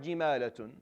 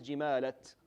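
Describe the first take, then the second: First: The word ends with a full 'tun' ending. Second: The word ends abruptly on a bare 't'. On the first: The reciter carries on without stopping. "So for our qira'ah, it's jimalatun" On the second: The reciter stops on this word. "If you stop, it's jimalat"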